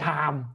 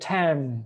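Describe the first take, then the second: First: The word has a Thai-style pronunciation. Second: The word has an English-style pronunciation. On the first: The speaker calls it wrong. "จะไม่เป็น time นะหรือเป็นไทยtime" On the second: The speaker calls it right. "จะเป็น"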